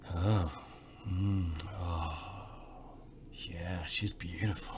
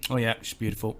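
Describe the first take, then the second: First: It is said slowly, with long hesitations. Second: It is said quickly and dismissively.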